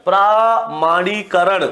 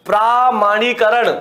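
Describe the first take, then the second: First: प्रामाणीकरण drawn out slowly syllable by syllable; slow dictation of प्रामाणीकरण; slow spelled-out word. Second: Said in the usual way. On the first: Shown as a demonstration. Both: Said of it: "प्रामाणीकरण नहीं होता".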